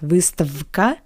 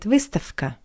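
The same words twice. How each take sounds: First: The consonant before k is a voiced v. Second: The consonant before k is a voiceless f. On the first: The speaker calls it wrong. "Not выставка" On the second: The speaker calls it right. "but выставка"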